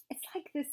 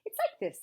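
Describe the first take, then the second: First: Higher-pitched, faltering explanation; tentative bear voice; hesitant Pooh. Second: High, hurried squeak; very high-pitched, hasty interjection; quick. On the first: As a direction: begin explaining uncertainly. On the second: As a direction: jump in quickly to explain. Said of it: "said Piglet quickly". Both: A narrator's reading.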